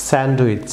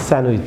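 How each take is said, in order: First: স্যান্ডউইচ with the D sounded, "sand-wich"; wrong pronunciation. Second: স্যান্ডউইচ as "san-wich", no D; silent D. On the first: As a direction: keep the D in স্যান্ডউইচ. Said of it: "wrong pronunciation". (স্যান্ডউইচ-এ ডি উচ্চারণ করে) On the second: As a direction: drop the D in স্যান্ডউইচ. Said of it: "ডি silent". (স্যান্ডউইচ-এ ডি না বলে, "স্যানউইচ") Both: Shown as a demonstration.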